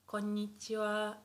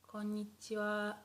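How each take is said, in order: The two takes are said the same way.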